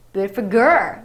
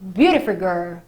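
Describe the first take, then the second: First: The stress is on girl. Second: The stress is on beautiful.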